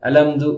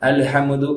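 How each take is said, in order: First: The h sound is dropped after al. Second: An extra vowel is inserted between m and d. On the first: "அப்படி சொன்ன தப்புல" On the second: "அப்படி சொன்ன தப்புல"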